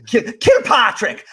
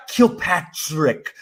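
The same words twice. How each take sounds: First: High, slow KILPATRICK in mock Irish brogue; Irish accent. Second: KILPATRICK very slowly, in his own accent; careful attempt without accent. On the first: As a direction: slip helplessly into an exaggerated Irish KILPATRICK. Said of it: "without doing an Irish accent". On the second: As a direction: stretch out KILPATRICK, trying to keep it normal. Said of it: "Like, I try". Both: Shown as a demonstration.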